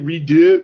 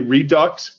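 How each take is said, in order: First: The word ends without an x sound. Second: The word ends with a clear x sound. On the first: "I want to say redo, but like French" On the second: "but then I feel like I'm trying to murder French"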